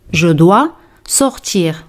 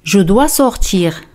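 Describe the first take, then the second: First: Slower, each word spelled out; slow repeat. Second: Said in the usual way. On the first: Shown as a demonstration. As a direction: repeat it slowly for learners. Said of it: "repetición lenta". (repetición lenta y clara) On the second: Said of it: "frase modelo".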